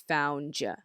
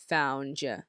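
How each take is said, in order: Both takes have the same delivery.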